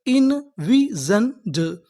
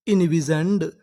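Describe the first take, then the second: First: Very slow, each syllable drawn out; इनविजन्ड stretched syllable by syllable. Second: Said in the usual way. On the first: Shown as a demonstration. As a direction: sound out इनविजन्ड slowly. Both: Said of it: "हमारी पूरी meaning क्या बनी".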